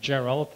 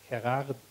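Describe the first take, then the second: First: The name is pronounced the English way. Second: The name is pronounced the Dutch way. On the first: "if we call him Gerald, I think that's uh, that's fine" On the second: "if I do the Dutch pronunciation"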